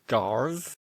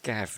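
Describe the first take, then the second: First: The name is said with an added r sound. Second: The name is said without an r sound. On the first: The speaker calls it wrong. "It might have an extra R" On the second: The speaker calls it right. "it's pronounced Gav, not Garv"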